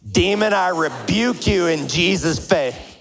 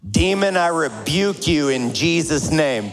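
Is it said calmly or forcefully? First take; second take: forcefully; calmly. First: It is said forcefully, like throwing a punch. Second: It is said in a plain, calm way.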